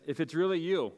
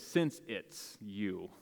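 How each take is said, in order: First: Said in the usual way. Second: Slow, leaning on "Since it's you"; a slow, sure "Since it's you"; stress on Since. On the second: Shown as a demonstration. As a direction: draw out "Since" with weight. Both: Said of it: "most translations actually say".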